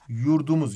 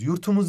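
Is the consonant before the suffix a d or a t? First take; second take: d; t. First: The middle consonant is a soft d. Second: The middle consonant is a hard t. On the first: The speaker calls it right. "Bu t, d diye yumuşadı" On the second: The speaker calls it wrong. "Yurtumuz demiyoruz ya"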